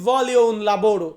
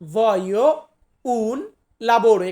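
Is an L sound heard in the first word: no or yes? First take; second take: yes; no. First: The first word is said with an L sound. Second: The first word is said without an L sound. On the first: The speaker calls it wrong. "আবার অনেকে আমরা বলি ভলিও উন লাবোরো" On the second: The speaker calls it right. "আমার মতে সঠিক উচ্চারণটা হবে ভয়ো"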